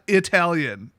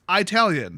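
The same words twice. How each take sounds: First: Its first syllable sounds unlike the start of 'italics'. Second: Its first syllable sounds like the start of 'italics'. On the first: The speaker calls it wrong. "not Italian" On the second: The speaker calls it right. "it's Italian, not Italian. You know, like the word italics"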